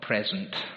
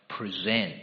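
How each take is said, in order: First: The stress is on the first syllable. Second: The stress is on the second syllable. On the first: A gift or the current time. The speaker calls it wrong. "Not present" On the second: To offer oneself by deliberate choice. The speaker calls it right. "but present"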